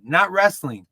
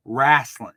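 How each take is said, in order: First: Wrestling said crisply with a clear final ng; careful "wrestling" as written; proper pronunciation. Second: "wrestling" said as wrassle, ending dropped; hillbilly pronunciation. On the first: Podcaster contrasting proper and hillbilly wrestling. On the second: Podcaster mocking his family's hillbilly wrestling. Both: Shown as a demonstration.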